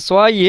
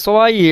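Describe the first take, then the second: The two takes are said the same way.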